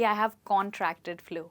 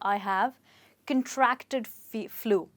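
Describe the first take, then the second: First: The stress is on the first syllable of contracted. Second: The stress is on the second syllable of contracted. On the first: The speaker calls it wrong. "ना कि" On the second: The speaker calls it right. "आप कहेंगे"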